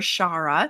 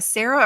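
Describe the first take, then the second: First: The name begins with an sh sound. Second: The name begins with a plain s sound. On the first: "I'm going to say Shara because I being taught the S H" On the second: "I've actually heard people pronounce Sarah"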